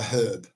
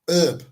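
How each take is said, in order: First: The word begins with an audible h sound. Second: The word begins without any h sound. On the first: The speaker calls it right. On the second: The speaker calls it wrong.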